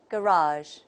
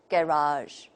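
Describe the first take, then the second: First: It is said with an American accent. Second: It is said with a British accent. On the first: "according to the American model" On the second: "if we take the British model, we say"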